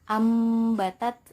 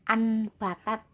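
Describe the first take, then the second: First: The nasal before the b is an m sound. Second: The nasal before the b is an n sound. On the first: The speaker calls it right. "suaranya itu mim sukun" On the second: The speaker calls it wrong. "bukan anbatat ya"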